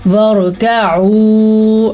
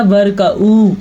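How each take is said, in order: First: वरकऊ recited slowly with a distinct throat ayn before a long ऊ; clear ayn. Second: वरकऊ with a plain oo in place of the throat ayn; missing ayn. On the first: Teacher modelling the right reading, वरकऊ with clear ayn. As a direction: bring out the ayn in वरकऊ and hold the end. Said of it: "आइन के मखरज को वाज़िया करके". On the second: Teacher showing the common mistake, वरकऊ with ayn lost. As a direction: slide into the ऊ of वरकऊ without any ayn. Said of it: "इसको वाज़िया नहीं करेंगे तो ये बनेगा". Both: Shown as a demonstration.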